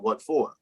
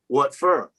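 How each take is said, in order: First: The last word is said like 'for'. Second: The last word is said like 'fur'. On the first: The speaker calls it right. "as opposed to" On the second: The speaker calls it wrong. "fur instead of for"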